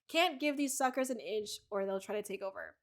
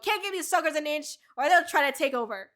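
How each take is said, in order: First: It is said sadly, slowly and disappointed. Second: It is said in an angry tone. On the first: The speaker is worn out and disappointed. "in this context, it's very like sad and slow and almost like just disappointed" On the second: The speaker is furious at others. "when you say it normally, like it sounds really angry"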